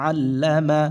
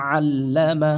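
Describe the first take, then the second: Both takes have the same delivery.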